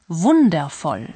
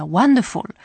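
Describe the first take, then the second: First: "wundervoll" said slowly the German way, "vun-der-foll"; deliberate German pronunciation; German word. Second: "wonderful" said the English way, as "wan-de-fol"; English pronunciation; English word. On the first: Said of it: "que en alemán suena parecido". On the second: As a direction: give "wonderful" its English sounds. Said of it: "Utiliza la palabra inglesa". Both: Shown as a demonstration.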